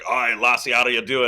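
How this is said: It is said in a Scottish accent. "Like a Scotsman be like"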